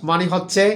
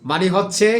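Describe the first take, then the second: Both takes have the same delivery.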